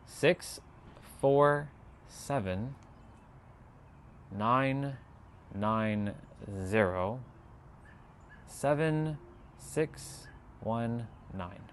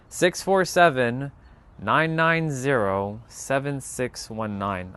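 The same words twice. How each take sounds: First: Very slow, pausing after every digit; softer, separated dictation of the number. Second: Slow, deliberate reading of digits; steady dictation pace; said slowly. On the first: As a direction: dictate one number at a time, letting each land. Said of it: "I'll say it again". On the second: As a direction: read each number clearly so they can write it down. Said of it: "I'll say it slowly". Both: Shown as a demonstration.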